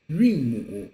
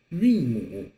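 First: "Yunmu" set apart and said clearly as a model; model pronunciation. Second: Said in the usual way. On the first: Shown as a demonstration. Teacher modelling the Chinese term, clear "Yunmu". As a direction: say "Yunmu" on its own for the class to repeat.

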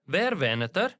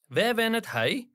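First: Er said weak and short; light er ending the question; unstressed er. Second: Hij said in full, stressed; full hij ending the question. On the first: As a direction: let er drop away unstressed. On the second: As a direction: lean on hij. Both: Shown as a demonstration. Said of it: "when it doesn't carry stress, we use er".

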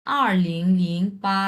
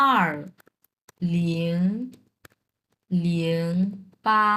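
First: Said in the usual way. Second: "আর ... লিং ... লিং ... পা", a long pause after each word; digit by digit. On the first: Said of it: "দুই হাজার আটকে উচ্চারণ করি একটু". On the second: Shown as a demonstration. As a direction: say "আর, লিং, লিং, পা" one at a time, widely spaced. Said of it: "চাইনিজে উচ্চারণ করতে হবে একটা একটা করে".

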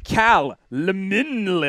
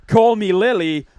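First: "Cal Lemin Lily" with the middle run together as a name; trying another pronunciation. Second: "Call Me Lily" as three separate words; trying a pronunciation. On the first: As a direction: sound out "Cal Lemin Lily" slowly, questioning. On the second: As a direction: say "Call Me Lily" slowly, word by word. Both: Shown as a demonstration. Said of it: "how do you say that name".

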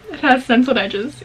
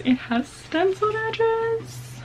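First: Said in the usual way. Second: High, slow, drawn-out gush; high delighted squeal. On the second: Real, not acted. Showing the viewers the stenciled edges, high squeal. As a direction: squeal it like you can't believe it.

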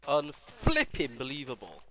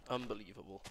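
First: Exasperated shout. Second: Said in the usual way. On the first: Real, not acted. Repeats louder, slower.

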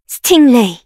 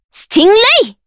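First: Said in the usual way. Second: Much higher, ringing; high shouted summon. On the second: Acted. Summoner shouting the creature's name high.

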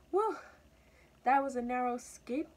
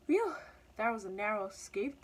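First: Higher, louder relieved exclamation; high-pitched little mouse, relieved. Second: Mildly relieved exclamation; a puff of relief after escape; lightly voiced relieved cat. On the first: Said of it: "thought the mouse at the bottom". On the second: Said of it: "thought the cat, covering at the top". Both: A narrator's reading.

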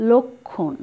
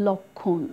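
First: লক্ষণ as lok-khon, purely oral; no nasal vowel. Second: লক্ষ্মণ as lok-khõn, second vowel nasal; nasalised, silent m. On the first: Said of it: "মটা যদি এখানে না থাকে". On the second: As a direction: say লক্ষ্মণ softly with a nasalised khõ. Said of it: "উচ্চারণ নেই কিন্তু নাসিক্য উচ্চারণ করেছি". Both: Shown as a demonstration.

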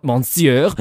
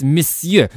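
First: "Monsieur" shouted as "mon-syur", N sounded; high, loud "Monsieur" rising, first syllable said "mon"; mocked mispronunciation. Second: "Monsieur" shouted as "miss-yuh", no N; high, loud "Monsieur" with a short first vowel and silent N; correct French pronunciation. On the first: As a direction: throw back a wrong "Monsieur" with a heavy "mon". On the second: Acted. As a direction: angrily correct it, saying "Monsieur" like "muh-syuh". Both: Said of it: "not Monsieur".

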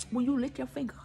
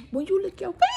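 First: Said in the usual way. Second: Higher, rising on "finger"; playful repeat. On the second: Acted. Savouring juice off her finger, playfully higher. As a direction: lift the end up high.

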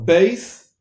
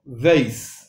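First: "beis" with a firm stop b; hard B in beis. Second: "veis" opening on a soft v. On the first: Teacher contrasts letters with dogesh, hard B. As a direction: close the lips fully to start "beis". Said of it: "con énfasis". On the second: Teacher contrasts letters without dogesh, soft V. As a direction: start "veis" gently with v, not b. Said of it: "B corta". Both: Shown as a demonstration.

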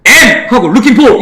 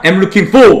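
First: "am" 뒤에서 끊고 "looking for". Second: "am looking for"를 한 덩어리로. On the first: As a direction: break after "am", then "looking for". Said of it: "이렇게 끊지 말란". ("am"과 "looking for"를 따로) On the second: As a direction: link "am looking for" with no break. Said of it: "같이 가는 거야". ("am looking for"를 끊지 않고 같이) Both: Shown as a demonstration.

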